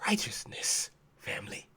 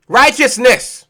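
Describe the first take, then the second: First: Breathy whispered "Righteousness". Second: "Righteousness" said slow and full; slow, full-voiced answer; emphatic repeat. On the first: Acted. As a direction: drop to a hushed whisper. Whispered answer to question. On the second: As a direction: land the word slowly and firmly. Repeated aloud after whisper.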